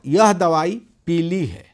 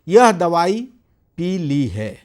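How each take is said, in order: First: Peelee is said as one word, without a break. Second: A slight break separates pee and lee. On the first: The medicine is yellow. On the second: The medicine has been drunk.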